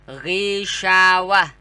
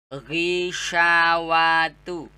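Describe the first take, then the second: First: The word ends with a soft 'h' sound. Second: The word ends with a full 'tu' syllable. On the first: The reading stops on this word. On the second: The reading continues without stopping.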